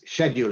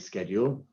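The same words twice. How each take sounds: First: The word has a British pronunciation. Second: The word has an American pronunciation. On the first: The speaker calls it right. "it's schedule in English" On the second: The speaker calls it wrong. "Americans say schedule"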